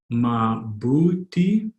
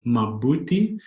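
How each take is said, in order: First: Slow, separated syllables in "mabuti". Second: Said in the usual way. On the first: Shown as a demonstration. Teacher modelling a Tagalog response, slowly by syllable. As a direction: sound out "mabuti" slowly for a learner.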